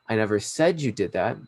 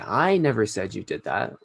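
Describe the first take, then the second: First: The stress falls on the word said. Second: The stress falls on the word I. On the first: It was thought but never said aloud. "I might have thought that you did that... but I never said it explicitly" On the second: Someone else said it. "that means maybe I didn't say that, but someone else did"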